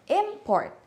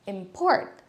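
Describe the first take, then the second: First: Import with high first syllable; stress on IMport. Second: Import stressed on PORT, rising. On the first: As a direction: hit IM in import. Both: Shown as a demonstration. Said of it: "many other words like".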